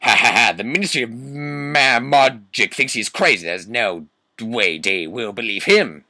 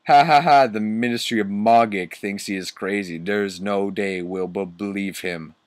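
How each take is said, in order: First: Put-on villain voice with loud mock laugh; hammed-up sneering teacher, pushed and theatrical; Snape, mean laugh. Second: Lightly voiced mean teacher after a mock laugh; Snape, mean laugh. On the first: Teacher scoffing at the ministry, full mean character voice. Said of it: "let me get my Snoop voice up". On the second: Teacher scoffing at the students' threat, lightly mean. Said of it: "Snoop laughed meanly".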